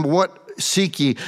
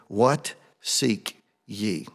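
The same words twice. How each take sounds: First: "What seek ye?" said louder and higher, slowed; louder fervent reading. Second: "What seek ye?" read slowly, each word weighed; slow solemn reading. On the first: Preacher rereads Jesus' question with rising fervor. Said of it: "What are you looking for?". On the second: Preacher reads Jesus' question to the congregation, slow and solemn. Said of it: "Let me read it". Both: Shown as a demonstration.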